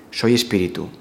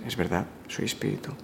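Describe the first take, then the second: First: Said in the usual way. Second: Hushed and much softer, almost whispered; soft inner affirmation. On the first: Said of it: "Sientes tu presencia". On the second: Shown as a demonstration. Speaker to listener, showing the felt affirmation, soft hush. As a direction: say it quietly as a felt truth. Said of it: "y dices".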